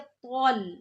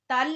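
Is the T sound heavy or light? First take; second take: heavy; light. First: The T sound is heavy and thick. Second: The T sound is light and thin. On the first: The speaker calls it right. "ये भी तौ आ गया मोटा, तल नहीं बल्कि तौल" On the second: The speaker calls it wrong. "तल नहीं"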